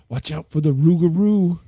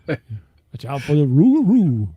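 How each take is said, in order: First: It is said in a plain, ordinary accent. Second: It is said in a Cajun French accent.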